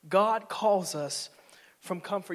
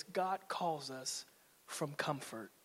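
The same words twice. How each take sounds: First: Slow and louder, punched; slow, emphatic proclamation. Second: Slow and soft, drawn out; hushed, slow statement. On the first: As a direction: hit it slow and strong. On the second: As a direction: lay it down gently and slowly. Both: Shown as a demonstration.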